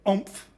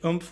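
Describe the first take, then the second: First: The vowel is like the one in 'maroon'. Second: The vowel is not like the one in 'maroon'. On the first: This is how people in Queensland say it. "we say oomph, on analogy with maroon" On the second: This is how people outside Queensland say it. "we don't say oomph"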